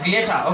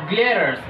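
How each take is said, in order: First: The word ends without an R sound. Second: The word ends with an R sound. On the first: "if you want to speak British English ... There will be no R sound" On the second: "here I'm talking about the American accent"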